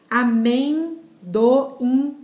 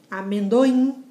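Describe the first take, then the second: First: "Amendoim" very slowly as a-men, do, im; split into syllables. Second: Said in the usual way. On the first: Shown as a demonstration. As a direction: draw out each part of "Amendoim", pausing before the final "im". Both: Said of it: "a tonicidade tá no in".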